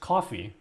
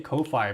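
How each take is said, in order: First: It sounds just like the drink coffee. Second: It is said the way it is spelled. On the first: This is said to be the official pronunciation. "apparently it's like, no, it's coffee" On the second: This is how most people say it. "people say Ko-Fi"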